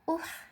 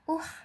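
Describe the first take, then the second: Both takes have the same delivery.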